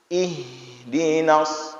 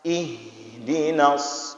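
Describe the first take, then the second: Both takes have the same delivery.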